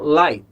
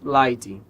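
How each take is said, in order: First: It ends cleanly on the final consonant. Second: It ends with an added vowel sound. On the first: The speaker calls it right. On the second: The speaker calls it wrong.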